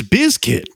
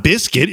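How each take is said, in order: First: Bizkit with a voiced z, BIZ-kit; corrected pronunciation. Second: Biscuit with an s sound, BIS-kit; wrong pronunciation. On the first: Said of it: "It's not biscuit, it's Bizkit". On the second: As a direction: say biscuit like the food, with s. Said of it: "It's not biscuit". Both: Shown as a demonstration.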